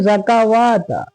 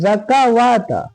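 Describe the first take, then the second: Both takes have the same delivery.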